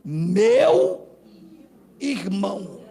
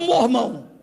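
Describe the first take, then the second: First: Both words are said fully and separately. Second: The two words are slurred into one short word. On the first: This is the expected, proper way there. The speaker calls it right. "Lá tem que ser meu irmão" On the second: The speaker talks in a plain, unpolished way. The speaker calls it wrong. "eu não sei falar, eu falo mormão"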